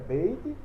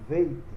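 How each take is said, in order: First: The word begins with a b sound. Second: The word begins with a v sound. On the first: The letter carries a dot inside it. "com pontinho é bait" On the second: The letter has no dot inside it. "sem o pontinho é veit"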